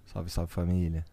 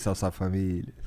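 First: Catchphrase voice. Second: Low put-on greeting voice; deep catchphrase voice. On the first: Pretend. Catchphrase greeting in put-on voice. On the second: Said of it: "Tem que ser três vezes".

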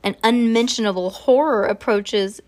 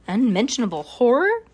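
First: Said in the usual way. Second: HORROR swept upward as a question; puzzled echo question. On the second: A narrator's reading. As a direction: echo it, lifting "horror" in disbelief. Officer echoes the woman, questioning.

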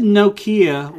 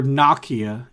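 First: "Nokia" with a long OH, NOH-kee-uh; usual pronunciation of Nokia. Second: "Nokia" with a short O, NOCK-ee-uh; corrected pronunciation of Nokia. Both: Shown as a demonstration. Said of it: "if you wanna say it correctly".

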